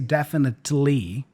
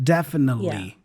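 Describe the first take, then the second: First: The T sound is clearly pronounced. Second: The T sound is dropped, leaving the N. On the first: The speaker calls it wrong. "He doesn't say definitely, nothing like that" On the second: The speaker calls it right. "Imagine there's no T there, and we just hear the N sound"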